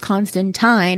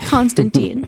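First: The name is said with a British pronunciation. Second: The name is said with an American pronunciation. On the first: "It's that proper English pronunciation" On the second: "I'm an American. I'm going to say Constantine"

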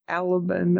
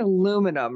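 First: The word is said with a British-sounding pronunciation. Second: The word is said the plain, ordinary way. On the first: This is how the character said it. "He said like aluminum or something. It was weird" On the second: This is the expected way to say it. "he didn't say aluminum"

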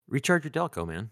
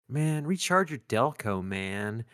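First: It is said straight, as a sincere line. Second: It is said in a mocking Valley Girl style.

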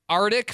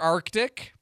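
First: The first c sound is left out. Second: The first c sound is clearly pronounced. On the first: The speaker calls it wrong. "Arctic for Arctic" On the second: The speaker calls it right. "Get all your letters in there in the right order"

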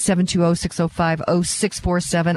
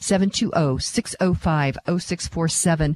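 First: The number is said quickly. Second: The number is said more slowly.

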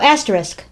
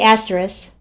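First: All consonants and syllables are pronounced fully. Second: A consonant or syllable is dropped from it. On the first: "That's how I say it" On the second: "But you say asterisk"

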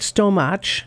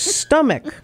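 First: The ch is said like the start of cheese. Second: It has a short u vowel and a k sound. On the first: The speaker calls it wrong. "the ch sound be like the first sound in cheese" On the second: The speaker calls it right. "It's stomach"

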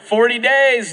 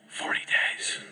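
First: It is said loudly with excited energy. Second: It is said quietly in a whisper. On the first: The city is surely doomed. "an excited proclamation, like" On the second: He hoped nobody would hear the warning. "I kind of think it might have been a whisper"

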